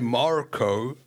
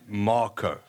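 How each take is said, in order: First: The name is said with an American accent. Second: The name is said with a non-American accent. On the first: The speaker calls it wrong. "don't say Marco" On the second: The speaker calls it right. "Say Marco"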